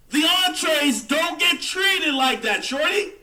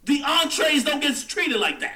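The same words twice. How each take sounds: First: Higher, louder and slower; "The entrees don't get treated like that" shouted slowly, higher and louder; emphatic shout. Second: Said in the usual way. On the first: Acted. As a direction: hammer the point home, shouting. Repeats the line, louder the second time.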